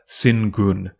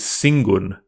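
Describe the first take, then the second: First: The nasal before g is a plain n. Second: The nasal before g is an ng sound. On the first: The speaker calls it wrong. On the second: The speaker calls it right. "is realized as eng, that is an N G sound"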